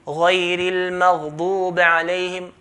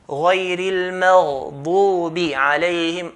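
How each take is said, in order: First: The vowel after the b is unclear. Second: The vowel after the b is clear. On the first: The speaker calls it wrong. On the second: The speaker calls it right.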